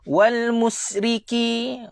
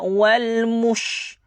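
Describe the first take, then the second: First: The consonant after 'mu' is a plain s. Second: The consonant after 'mu' is an sh. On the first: The speaker calls it wrong. "Jangan baca dengan huruf sin" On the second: The speaker calls it right. "jaga huruf shin"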